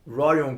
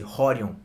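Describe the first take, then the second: First: The name is said the English way. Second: The name is said the Brazilian way, R like H.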